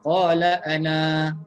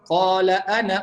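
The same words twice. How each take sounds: First: The final vowel of ana is held long. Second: The final vowel of ana is short, run on. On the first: The reading stops after this word. "Kalau berhenti" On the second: The reading continues into the next words. "Kalau sambung dia tidak dibaca"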